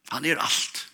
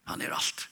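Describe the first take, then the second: First: Said in the usual way. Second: Whispered repeat. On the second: Real, not acted. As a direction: whisper "Han er alt" much softer, almost unvoiced.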